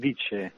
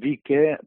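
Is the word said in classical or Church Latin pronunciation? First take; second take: Church; classical. First: It is said with the Church Latin pronunciation. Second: It is said with the classical Latin pronunciation. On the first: "en llatí vaticà diríem vice" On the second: "jo t'ho pronuncio vice, però s'escriu en C, perquè el llatí clàssic"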